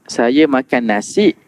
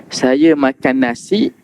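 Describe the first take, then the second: The two takes are said the same way.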